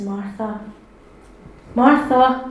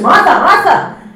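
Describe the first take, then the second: First: It is said in a gentle, kind tone. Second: It is said in a harsh, scolding tone.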